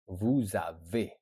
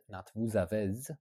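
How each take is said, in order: First: Vous avez ending in a closed "é", slow; correct pronunciation. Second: Vous avez ending in a sounded Z, "avez" like "avèz"; wrong pronunciation. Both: Shown as a demonstration.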